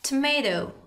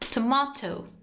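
First: It is said with an American accent. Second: It is said with a British accent.

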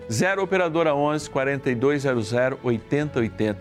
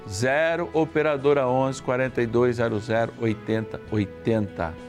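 First: The number is read at a quicker pace. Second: The number is read at a slower pace.

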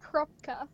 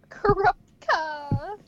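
First: The name is said with two syllables. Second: The name is said with four syllables. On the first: "I've always pronounced it Krupka" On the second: "It just sounds so weird with the A"

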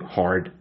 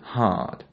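First: The r after the vowel is clearly pronounced. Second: The r after the vowel is dropped. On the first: The speaker calls it wrong. "No hard" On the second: The speaker calls it right. "but hard"

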